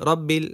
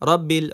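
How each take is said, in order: Both takes have the same delivery.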